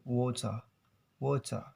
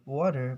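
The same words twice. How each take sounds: First: "water" as "waw-tah", t crisp, no final r; "water" the British way, r dropped. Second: "water" with t as a quick d and final r; "water" the American way, tapped t. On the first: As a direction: say "water" with a clear t and open ending. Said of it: "but in British". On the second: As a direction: say "water" like "wadder". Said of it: "Americans, they call it". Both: Shown as a demonstration.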